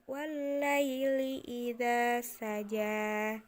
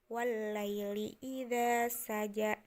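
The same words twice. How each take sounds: First: The final vowel is held long. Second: The final vowel is cut short. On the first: The speaker calls it right. "tetapi tetap panjang" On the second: The speaker calls it wrong. "tidak jadi"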